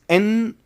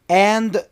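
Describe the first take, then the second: First: The word is reduced to sound like 'in'. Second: The word is said in its full form. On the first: "becomes in" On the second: "And becomes in or on"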